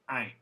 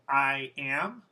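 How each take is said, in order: First: It is said as one contracted syllable. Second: It is said as two full words.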